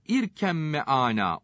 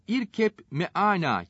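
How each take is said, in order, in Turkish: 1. b sesi, çift m sesine karışır. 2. b sesi, m'den önce ayrı olarak duyulur. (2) "yazılır ise de"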